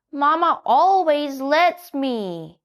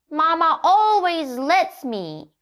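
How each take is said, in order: First: A lightly voiced little donkey, higher and slow; child donkey wheedling. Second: Giggly, cheeky high voice; giggling. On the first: Donkey asks the hen for fries, high and slow. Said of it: "said Little Donkey". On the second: Donkey giggles back at the scolding hen. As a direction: laugh while you say it. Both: A narrator's reading.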